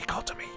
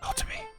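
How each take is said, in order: First: The voice falls at the end. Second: The voice rises at the end.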